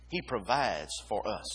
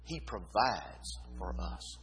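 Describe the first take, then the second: First: Said in the usual way. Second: "He" weighted, slow and softer, every word placed; quiet, deliberate "He provides for us"; slow emphatic. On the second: Shown as a demonstration. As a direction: lay the stress on "He", slowly. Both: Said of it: "What's the emphasis there?".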